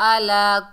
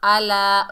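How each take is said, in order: First: It starts with a plain vowel and glottal catch. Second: It starts with a sound squeezed in the throat. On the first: The speaker calls it wrong. "ऐसे नहीं पढ़ना" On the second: The speaker calls it right. "आइन को अपने मखरज से अदा करना है"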